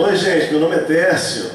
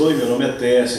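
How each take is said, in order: First: Higher and louder, bright opening hello; lively greeting. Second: Said in the usual way. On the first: Shown as a demonstration. Pastor redoes the greeting with loud, high energy. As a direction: throw it out to the whole church. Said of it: "Tá bom?". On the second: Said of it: "a gente faz assim".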